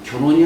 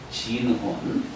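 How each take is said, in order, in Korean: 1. 첫 음절은 gyeon으로 발음해요. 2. 첫 음절은 jin으로 발음해요. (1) "견훤이 아니라" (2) "본래 성을 얘기하면 진혼이라고 합니다"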